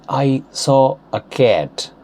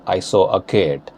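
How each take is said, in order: First: Slow, careful American-accented "cat" with open vowel. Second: Indian-accented "cat", closer vowel and hard t. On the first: Teacher giving an example sentence, slow American accent. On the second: Teacher repeating the example sentence in Indian accent. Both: Shown as a demonstration. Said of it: "Changing them into Indian accent".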